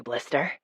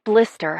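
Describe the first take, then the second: First: "Blister" murmured low and soft with a small rise; faraway voice. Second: Said in the usual way. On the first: A narrator's reading. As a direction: breathe "Blister" lightly as a drowsy pet name. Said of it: "in a faraway voice".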